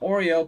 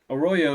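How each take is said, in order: First: The name sounds like the cookie 'Oreo'. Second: The name sounds like 'uh-ROY-oh'. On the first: It is a playful nickname. "I like to call him Oreo" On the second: It is the proper pronunciation. "is exactly how you're supposed to pronounce it"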